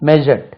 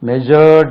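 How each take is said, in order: First: The word is said short and compact. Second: The word is drawn out long. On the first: The speaker calls it right. "D சேர்த்தா measured" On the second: The speaker calls it wrong. "measured என்று உச்சரிக்க கூடாது, அவ்வளவு நீளமா அளக்கக்கூடாது"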